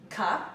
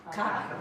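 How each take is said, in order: First: "Ka" with a crisp back K; K sound. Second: "Ka" with a crisp back K again; K sound. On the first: Coach leads the class in the drill, crisp K. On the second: Coach repeats the K drill, crisp K. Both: Shown as a demonstration. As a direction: snap out "Ka" from the back. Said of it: "Come on".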